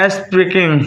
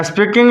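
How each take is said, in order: First: स्पीकिंग spaced out, स्पी then किंग; broken into syllables. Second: Said in the usual way. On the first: Shown as a demonstration. Teacher showing students syllables, स्पीकिंग said in parts. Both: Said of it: "syllable".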